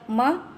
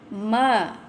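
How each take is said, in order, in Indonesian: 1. Vokalnya dipotong sangat pendek. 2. Vokalnya ditahan dua ketuk. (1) "pendek sangat" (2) "macam itulah"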